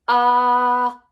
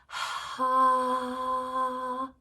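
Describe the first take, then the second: First: The syllable starts with a harsh catch. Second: The syllable starts with a rush of air. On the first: "with a glottal, very harsh" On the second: "with a breathy onset"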